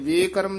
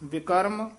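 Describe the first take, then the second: First: The first vowel is a long 'e' sound. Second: The first vowel is a short 'i' sound. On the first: The speaker calls it wrong. "ਲਾਂ ਵੀ ਨਹੀਂ ਲਾ ਦੇਣੀ, ਵੇਕਰਮ ਨਹੀਂ ਕਹਿਣਾ" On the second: The speaker calls it right. "ਵਿਕਰਮ ਹੀ ਉਚਾਰਨ ਕਰਨਾ ਹੈ"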